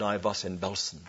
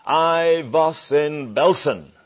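First: Put-on soft, low German-accented retelling, almost reverent; hushed German accent. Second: Put-on slow, loud German-accented answer from the back. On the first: Preacher quietly repeating the survivor's words, soft German accent. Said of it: "And he said". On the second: Holocaust survivor answering the preacher, loud slow German accent. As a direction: give it a heavy German accent, slow and firm. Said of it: "a voice with a German accent said".

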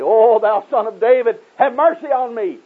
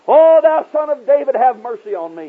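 First: High, drawn-out pleading cry; slow, insistent cry for mercy, pitched high; crying more loudly. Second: High, loud pleading cry. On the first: Blind beggar refusing to be hushed, crying out louder. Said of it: "he cried the more loudly". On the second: Blind beggar pleading to Jesus from the roadside, crying out. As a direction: cry out for mercy, voice pitched high. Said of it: "he cried out". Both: Retold or imitated.

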